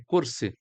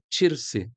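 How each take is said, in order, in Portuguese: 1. A palavra começa com um som de k. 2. A palavra começa com um som de ch. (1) "a cadeira é kursi" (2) "No palestino esse que eu falo é tirse... o tcha o tempo inteiro, no lugar do do ka"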